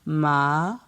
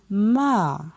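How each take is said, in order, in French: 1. On la prononce sur un ton montant. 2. On la prononce sur un ton descendant. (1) "Ton montant" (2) "Ton descendant"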